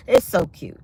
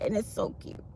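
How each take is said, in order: First: Said in the usual way. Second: Unvoiced whisper of it's so cute. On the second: Real, not acted. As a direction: whisper it breathlessly. Whispered then repeated.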